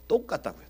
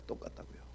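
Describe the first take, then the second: First: Said in the usual way. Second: 똑같다고요 whispered, breath only, much softer; whispered echo. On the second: Real, not acted. Preacher whispering 똑같다고요 back to the congregation. Repeated point, then whispered.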